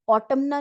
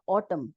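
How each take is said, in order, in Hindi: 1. अंत में n ध्वनि उच्चारित होती है। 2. यह शब्द बिना किसी n ध्वनि के समाप्त होता है। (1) "ऑटमना नहीं बोला" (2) "एन यहाँ पे साइलेंट हो गया"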